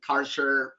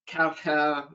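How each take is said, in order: First: The name is said with an American pronunciation. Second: The name is said with a non-American pronunciation. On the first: "I think there's the American pronunciation" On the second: "There's the"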